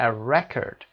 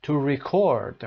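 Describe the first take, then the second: First: "record" as a noun, REC-ord; first-syllable stress. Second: "record" as a verb, re-CORD; second-syllable stress. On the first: Teacher showing students the noun, "record" stressed on REC. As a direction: punch REC, let "-ord" reduce. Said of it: "nouns are usually stressed on the first syllable". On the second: Teacher showing students the verb, "record" stressed on CORD. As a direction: punch CORD at the end. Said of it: "and the verbs on the second syllable". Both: Shown as a demonstration.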